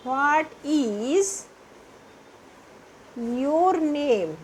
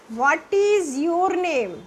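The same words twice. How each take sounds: First: What is, pause, then your name; in two chunks. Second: What is your name stretched very slowly. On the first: Teacher breaks the question into parts for pupils. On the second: Teacher models a question pupils will be asked, very slow. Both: Shown as a demonstration. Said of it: "कोई भी आपसे पूछे".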